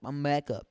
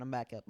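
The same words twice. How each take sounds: First: Sudden loud burst; loud, insistent announcement; emphatic repeat. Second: Said in the usual way. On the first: Real, not acted. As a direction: call it out much louder. Repeats it much louder.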